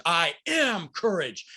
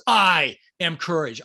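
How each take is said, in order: First: "am" stretched out slowly and punched; stress on AM. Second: "I" drawn out and hit loud, then "am courage"; stress on I. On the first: Coach showing affirmations with different words emphasized, stress on "am". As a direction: hold and hit the word "am" in "I am courage". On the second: Coach showing how to emphasize different words in affirmations, stress on "I". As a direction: lean hard and long on the word "I". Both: Shown as a demonstration. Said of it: "you emphasize different words".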